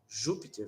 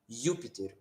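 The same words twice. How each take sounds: First: The word begins with a zh sound. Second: The word begins with a y sound. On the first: The speaker calls it wrong. "em vez de pronunciar como Júpiter" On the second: The speaker calls it right. "vai pronunciar como Júpiter"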